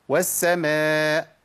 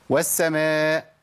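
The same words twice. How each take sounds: Both takes have the same delivery.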